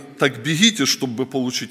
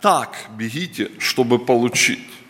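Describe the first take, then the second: First: The stress falls on the word получить. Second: The stress falls on the word так. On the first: Running is simply the way to obtain the prize. The speaker calls it wrong. "я почему-то всегда вот читаю не" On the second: One must run with great effort and intensity. The speaker calls it right. "То есть насколько мы должны бежать"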